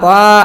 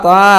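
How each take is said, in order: No difference in how they are said.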